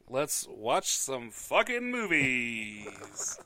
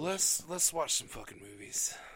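First: It sounds lively and full of gusto. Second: It sounds weary and exasperated.

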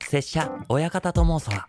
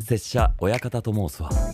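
First: The voice is higher, thinner and sounds younger. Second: The voice is the speaker's normal, natural tone. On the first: "もうちょっと若めに喉仏上げて声帯薄く使って" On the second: "僕ノーマルだと"

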